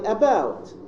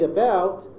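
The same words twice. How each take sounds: First: The first vowel is a full 'ah' sound. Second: The first vowel is a weak schwa. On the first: The speaker calls it wrong. "the glottal sound ah, which is inserted" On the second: The speaker calls it right. "instead of the schwa"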